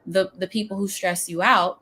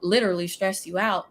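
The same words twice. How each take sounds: First: Said in the usual way. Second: The word "literally" leaned on, the rest plain; stress on literally. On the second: Shown as a demonstration. Coach warning listeners about draining clients, stressing "literally". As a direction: hit "literally" hard, then let it go.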